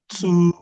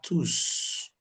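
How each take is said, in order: First: The final S sound is not pronounced. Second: The final S sound is clearly pronounced. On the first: The word is used as an adjective. "This S is silent" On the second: The word is used as a pronoun. "The S will be pronounced for the pronoun"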